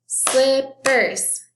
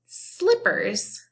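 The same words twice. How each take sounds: First: "Slippers" chanted high and loud as slip-pers; two strong separate beats on "Slippers"; clap-along "Slippers", syllable by syllable; broken into syllables. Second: Said in the usual way. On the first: Shown as a demonstration. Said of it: "Let's clap the syllables". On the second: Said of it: "that is slippers".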